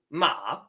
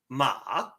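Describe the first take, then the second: First: The pitch stays high and level. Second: The pitch starts low and rises. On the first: "first tone is flat and even" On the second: "your second tone sounds like ma, ma. It starts down here and raises up"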